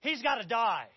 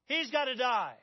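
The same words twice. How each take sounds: First: Loud angry outburst; enraged verdict. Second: Loud, insistent angry repeat; repeated enraged verdict. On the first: King David erupting at Nathan's story, loud and angry. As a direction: spit out the sentence. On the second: King David insisting again to Nathan, loud. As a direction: hammer the sentence home. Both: Acted. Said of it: "he cannot contain himself".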